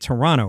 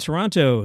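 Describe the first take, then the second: First: The second t sound is dropped. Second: The second t sound is clearly pronounced. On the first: The speaker calls it right. "You're actually supposed to drop the second T" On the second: The speaker calls it wrong. "I said the second T"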